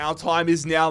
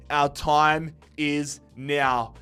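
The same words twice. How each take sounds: First: Said in the usual way. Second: Slow, weighty and deliberate; drawn out like a hype line; slow dramatic announcement. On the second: Acted. Slow dramatic repeat of intro.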